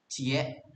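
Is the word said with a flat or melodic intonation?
flat. It is short with a flat intonation. It is the Padang way of saying it. "Padang residents might say"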